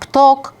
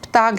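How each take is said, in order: First: The vowel is a closed 'o' sound. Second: The vowel is an open 'a' sound. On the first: The speaker comes from the countryside. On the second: This is the standard language form.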